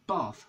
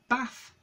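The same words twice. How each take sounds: First: It is said with a southern English accent. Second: It is said with a northern English accent. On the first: "most people south of it would say Bath, like I do" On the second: "most people north of this line would say"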